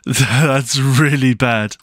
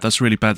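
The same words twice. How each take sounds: First: Slow, drawn-out laughing groan; laughing dismay. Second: Said in the usual way. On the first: Real, not acted. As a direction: laugh it off in disbelief. Laughing at the danger.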